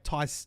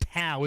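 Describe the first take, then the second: First: It rhymes with 'eye', like Thai. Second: It rhymes with 'cow', like Tau. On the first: The speaker calls it wrong. "I keep saying like Muay Thai" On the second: The speaker calls it right. "It's Tau, is it? Not Thai"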